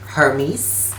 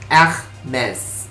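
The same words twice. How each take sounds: First: It is said with a Greek pronunciation. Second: It is said with a French pronunciation. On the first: It refers to the figure from Greek mythology. "itu dari pelafalan dari Yunani" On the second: It refers to the French fashion brand. "dan ini brand yang berasal dari Prancis, maka aku akan menyebutkannya menjadi Hermes"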